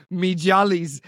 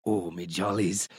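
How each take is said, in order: First: Said in the usual way. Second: "Oh, me jollies" dropped very low and soft, slow; mocking "me jollies". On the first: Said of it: "you referring to that as". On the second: Host mocking the caller's "me jollies" in a low, slow, dirty voice. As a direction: drool "me jollies" slowly in a low, lecherous croak. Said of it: "is utterly depraved".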